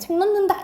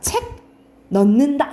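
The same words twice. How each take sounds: First: The words run together quickly with a nasal sound. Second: The two words are said separately and distinctly. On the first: "빨리 발음하면" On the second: "우리가 각각 발음하면 다 발음할 수 있잖아"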